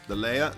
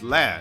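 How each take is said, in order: First: The word sounds like 'layer'. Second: The word sounds like 'lair'. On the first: The speaker calls it wrong. "the amount of people that call the uh, the lair a layer" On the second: The speaker calls it right. "the proper pronunciation is lair"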